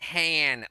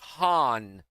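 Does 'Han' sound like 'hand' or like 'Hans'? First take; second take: hand; Hans. First: The vowel sounds like the one in 'hand'. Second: The vowel sounds like the one in 'Hans'. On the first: "like a hand" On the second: "like Hans Gruber"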